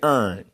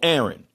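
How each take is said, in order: First: The name is said in a Baltimore accent. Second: The name is said in a general accent. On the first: "The person from Baltimore would say Ern" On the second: "Say like the person name is Aaron"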